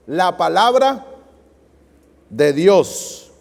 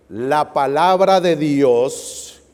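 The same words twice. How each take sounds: First: Said in the usual way. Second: Very slow, stretched words for the crowd to finish; slow cue, inviting the congregation to complete the verse; drawn-out prompt. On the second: Shown as a demonstration. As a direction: drag out "La palabra de Dios" so they join in. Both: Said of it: "Ayúdenme, ¿qué dice?".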